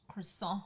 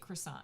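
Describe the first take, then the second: First: The word has a French-style pronunciation. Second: The word has an American English pronunciation. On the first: "if you're in a location that they say it that way" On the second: "Americanize it. We say croissant"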